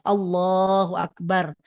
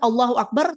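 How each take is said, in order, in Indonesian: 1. Diucapkan perlahan dan dengan penuh perhatian. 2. Diucapkan cepat dan terpotong. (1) "Jadi Allahu Akbar betul-betul meyakini bahwa Allah itu besar" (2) "Jangan Allahu Akbar terus bar gitu kan?"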